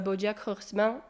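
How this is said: The name is said with a French accent. "Est-ce qu'il faut vraiment mettre l'accent français?"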